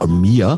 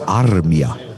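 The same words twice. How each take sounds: First: The name is said with an American pronunciation. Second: The name is said with a Finnish pronunciation. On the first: The speaker calls it wrong. "in Amerika, die völlig bekloppt sagen immer Armia" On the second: The speaker calls it right. "aber mir wurde dann erzählt, der Mann heißt Armia"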